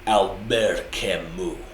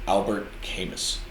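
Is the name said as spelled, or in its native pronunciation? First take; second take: native; as spelled. First: The name is said in its native pronunciation. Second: The name is read out just as spelled. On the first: The speaker calls it right. "but it's it's it's pronounced" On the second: The speaker calls it wrong. "his name it's spelled Albert Camus"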